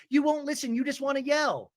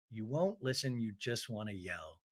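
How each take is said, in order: First: High-pitched imitation of a housewife; high mock complaint. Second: Soft, deep-pitched deadpan echo; low, quiet repeat. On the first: Retelling Jen and Tamara's quarrel, high mock complaint. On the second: Retold or imitated. Host echoes the quarrel line for comment, low and soft. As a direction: drop low and murmur it back.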